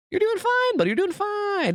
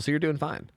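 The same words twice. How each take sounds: First: Much higher, sing-song soothing; mock reassurance. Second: Said in the usual way. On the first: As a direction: coo it like soothing a child.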